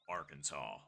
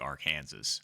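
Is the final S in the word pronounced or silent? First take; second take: silent; pronounced. First: The final S is silent. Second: The final S is pronounced. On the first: The speaker calls it right. "they insisted that it was a silent S" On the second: The speaker calls it wrong. "you can't say it like Arkansas"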